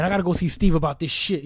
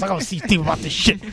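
First: Said in the usual way. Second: A light impression of friend Renee's voice; imitating Renee. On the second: Friend Renee heading to see Steve, lightly imitated. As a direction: do Renee's casual way of talking. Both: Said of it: "You know how Renee talks".

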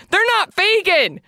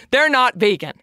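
First: Higher, slow, disbelieving repeat; shocked. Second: Said in the usual way. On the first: Real, not acted. Telling vegan listeners about the probiotics, higher and slow in shock. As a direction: stretch it out in shock. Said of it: "I was shocked".

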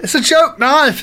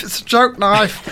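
First: High excited. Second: Said in the usual way. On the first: Shown as a demonstration.

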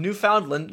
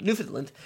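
First: Newfoundland with a long "foun" like found; Newfoundland read as "New-FOUND-land"; Newfoundland said wrong. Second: Newfoundland said quickly, "New-fun-land"; Newfoundland the local way, softer; Newfoundland corrected. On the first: Reading the review from Newfoundland, stumbling on the name. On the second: Correcting himself on the place name in a review. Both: Real, not acted.

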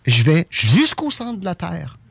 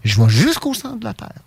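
First: Lent, voix de petite fille émerveillée; imite-la lentement, comme une enfant; fillette rêveuse. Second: Plus aigu, imitation de fillette; reprends-la en voix aiguë d'enfant; fillette enjouée. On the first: Retold or imitated. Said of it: "elle fait comme des gestuels de fillette". (voix d'enfant lente et légère) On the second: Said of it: "elle refait encore le même geste". (petite voix aiguë d'enfant)

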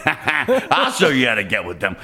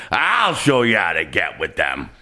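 First: Chuckling through a bold promise; laughing boast. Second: Lower, hammed-up shouted boast; mock shout. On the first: Retold or imitated. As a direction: laugh while you brag. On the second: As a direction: belt the promise out. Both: Voicing the lady on the ferry.

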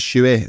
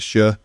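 First: "shoey" said as SHOO-ee in place of sure; Manx shoey. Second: Said in the usual way. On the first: Shown as a demonstration. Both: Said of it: "shoey instead of sure".

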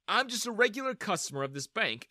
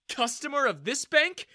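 First: Said in the usual way. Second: Customer of this bank tossed back high and sneering, rising on bank; mocking echo. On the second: Daniel repeats her words, sneering.

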